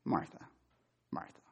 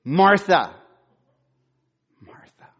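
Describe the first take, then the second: First: Quiet, tender Martha, Martha; soft, gentle naming. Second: Loud, sharp Martha, Martha; stern call. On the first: Pastor voicing Jesus calling Martha gently, soft and tender. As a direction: say her name softly and gently. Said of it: "Is it just". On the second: Pastor voicing Jesus scolding Martha, loud stern call. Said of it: "Or is it". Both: Shown as a demonstration.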